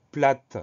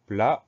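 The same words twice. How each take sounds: First: "plate" with the final T sounded; T pronounced. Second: "Plat" ending on the vowel, T silent. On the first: Teacher revealing the hidden letter, final T pronounced in "plate". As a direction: close "plate" on an audible T. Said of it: "on le retrouve en disant plate". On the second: Teacher showing pupils a mute letter, silent T in "Plat". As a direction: leave the final T of "Plat" unspoken. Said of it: "un T qu'on n'entend pas". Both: Shown as a demonstration.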